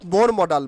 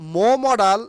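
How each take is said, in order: First: The first word ends with a pronounced r sound. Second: The first word ends without any r sound. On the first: The speaker calls it wrong. "Not মোর modal" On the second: The speaker calls it right. "এই মো modal"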